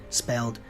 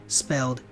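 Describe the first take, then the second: Both takes have the same delivery.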